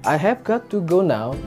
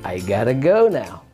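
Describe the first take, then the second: First: Every word is said fully and separately. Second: 'I've got to' is reduced to 'I gotta'.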